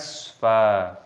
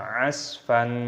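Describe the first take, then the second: First: The word ends on a long vowel without n. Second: The word ends with an n sound. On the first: The speaker calls it right. "maka ketika berhenti tanda waqaf, maka dibaca mat'iwat, dibaca asfa" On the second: The speaker calls it wrong. "bukan asfan"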